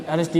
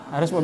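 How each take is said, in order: Both takes have the same delivery.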